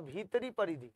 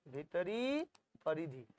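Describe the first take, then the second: First: Said in the usual way. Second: Long rising "भीतरी", then low falling "परिधि"; slow, soft dictation of "भीतरी", gap, "परिधि"; drawn-out repeat. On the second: Shown as a demonstration. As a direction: stretch "भीतरी" upward, drop softly on "परिधि".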